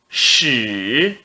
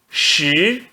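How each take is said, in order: First: The pitch dips low, then rises. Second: The pitch rises from mid to high. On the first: "No terceiro tom" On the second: "No segundo tom"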